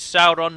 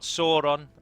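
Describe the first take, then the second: First: The first vowel sounds like 'ow' in loud. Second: The first vowel does not sound like 'ow'. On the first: The speaker calls it right. "it is Sauron" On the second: The speaker calls it wrong. "not Sauron"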